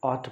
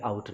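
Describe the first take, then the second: First: Ought said as awt, the vowel of bought; ought not out. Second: Out with the ow sound, the wrong way for ought; contrast word out. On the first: Teacher showing students how to say ought. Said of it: "ought पढ़ेंगे, out नहीं पढ़ेंगे". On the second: Teacher contrasting the wrong sound with ought. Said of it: "out नहीं पढ़ेंगे". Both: Shown as a demonstration.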